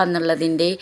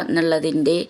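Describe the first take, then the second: The two takes are said the same way.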